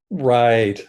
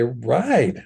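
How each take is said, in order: First: It sounds sarcastic and dismissive. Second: It sounds sincere and approving. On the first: The listener thinks what was said is foolish. "the stupidest thing I've ever heard" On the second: The listener fully agrees with what was said. "something that I agree with one hundred percent"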